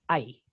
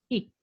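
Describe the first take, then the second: First: The vowel sounds like 'eye'. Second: The vowel sounds like 'it'. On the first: "así como cuando te duele algo" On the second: "así tal cual"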